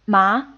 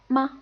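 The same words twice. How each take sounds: First: The pitch rises upward through the syllable. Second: The syllable is short, light and unstressed. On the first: "it takes on the second tone" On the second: "the neutral tone is pretty much the unstressed word"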